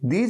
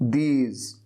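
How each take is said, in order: First: The word ends with a 'j' sound. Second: The word ends with a 'z' sound. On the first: The speaker calls it wrong. "दीज की जगह ज" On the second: The speaker calls it right. "नहीं"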